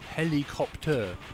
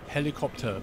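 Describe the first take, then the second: First: It is said with a French accent. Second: It is said with an English accent.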